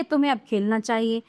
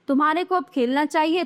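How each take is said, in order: First: "तुम्हें" prominent, then settling lower; correct example. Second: "तुम्हारे को" with "को" prominent; "तुम्हारे को" read as the faulty half; wrong example. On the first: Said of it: "ये शुद्ध हैं". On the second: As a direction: leave "चाहिए" up in pitch. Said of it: "ये तो अशुद्ध वाक्य हैं". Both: Shown as a demonstration.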